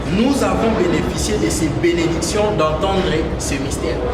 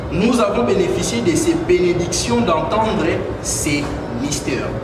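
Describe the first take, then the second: No difference in how they are said.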